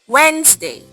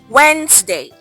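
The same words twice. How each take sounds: The two takes are said the same way.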